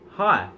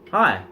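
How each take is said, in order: No difference in how they are said.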